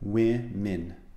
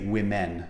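First: The second syllable has a short i sound, like min. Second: The second syllable sounds like the word men. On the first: The speaker calls it right. "Women is a different sound" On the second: The speaker calls it wrong. "don't say women, even though M-E-N spells the plural of men"

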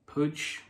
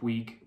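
First: The name is said with a Spanish-style pronunciation. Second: The name is said with an anglicized British pronunciation. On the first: "I don't know if I'm pronouncing this right" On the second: "if you were a typical Brit, then maybe"

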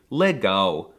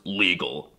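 First: The final sound is like a W. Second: The final sound is a clear L. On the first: The speaker calls it right. "but it's actually legal" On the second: The speaker calls it wrong. "it looks like it should be pronounced legal"

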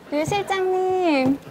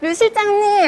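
First: It is called out at moderate volume. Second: It is called out much louder.

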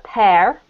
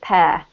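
First: It ends with a clear R sound. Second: It ends with no R sound. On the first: "with American pronunciation, you've got more of an R sound" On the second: "I have a British accent, so I pronounce it pear"

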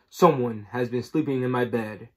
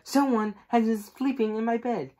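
First: The voice is big and deep. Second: The voice is medium in pitch and size. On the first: "said in his great big voice" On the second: "she said in her middle-sized voice"

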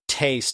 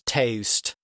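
First: The vowel is short and plain. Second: The vowel is drawn out with an added glide. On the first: This is the usual pronunciation. "instead of taste" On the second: This is the Sussex dialect pronunciation. "the vowels are pronounced very long in that accent, so that an A sound is pronounced like there's a U on the end"

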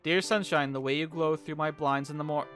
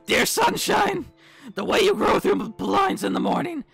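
First: It is read in his normal voice. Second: It is read in Sayori's put-on voice.

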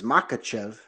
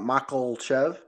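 First: The name has no L sound in the middle. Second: The name has an L sound in the middle. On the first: The speaker calls it right. "He's got to know the guy's name is Makhachev" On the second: The speaker calls it wrong. "Not Makhachev"

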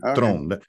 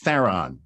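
First: The name is said the Afrikaans way, short O. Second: The name is said the English way, anglicized. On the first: This is the name's original pronunciation. "because it is an Afrikaans name. It's got a little O, so it's Tron" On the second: The name was made easier for English speakers. "But you can imagine people would go, I can't say that"

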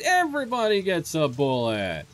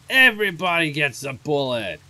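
First: It is said in a normal voice. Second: It is said in a gruff character voice.

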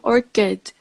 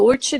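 First: The ch is said as a k sound. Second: The ch is said like the ch in chin. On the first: The speaker calls it right. "끝 sound" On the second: The speaker calls it wrong. "이거 orchid 아니에요?"

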